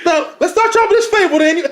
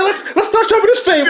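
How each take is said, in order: First: Lightly hammed-up sermon delivery; half-joking, high pulpit voice; mock preacher voice. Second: A hint of a pulpit boom; hammed-up but light; mock preacher voice. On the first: Man mocking his rival, in a put-on preacher tone. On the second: Man showing his rival how he sounds, in a put-on preacher tone. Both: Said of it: "if I sound like".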